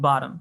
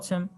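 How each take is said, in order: First: It is said with an American accent. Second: It is said with a British accent.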